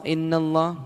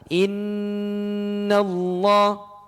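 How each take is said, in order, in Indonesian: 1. Dibaca cepat dengan sengau pendek. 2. Dibaca pelan dengan sengau panjang yang ditahan. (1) "Kecepatan bacanya" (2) "Maka pelan-pelan"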